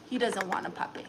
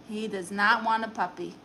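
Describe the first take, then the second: First: Said in the usual way. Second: "not" picked out firmly; stress on NOT. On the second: Real, not acted. Owner repeats her dog's verdict, stress on "not". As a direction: hit the word "not" to settle the matter.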